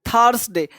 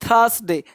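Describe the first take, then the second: No difference in how they are said.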